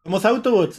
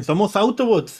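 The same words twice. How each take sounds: First: Little robots, pitched higher again; squeaky robot claim, hands up; mock tiny robot voice; mini Transformers. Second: Little robots, pitched higher; squeaky robot claim, hands up; mock tiny robot voice; mini Transformers. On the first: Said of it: "son los". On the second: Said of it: "los mini Transformers dicen".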